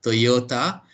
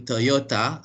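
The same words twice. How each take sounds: First: Toyota with a full "toh" at the start; "Toyota" offered as the other option; alternative variant. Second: Toyota with a reduced first vowel, tuh-YO-ta; "Toyota" as tuh-YO-ta, offered as an option; first variant. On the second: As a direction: say "Toyota" starting "tuh", rising. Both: Shown as a demonstration. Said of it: "help me with this pronunciation".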